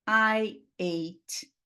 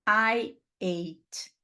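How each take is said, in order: No difference in how they are said.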